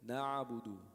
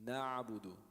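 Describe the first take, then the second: Both takes have the same delivery.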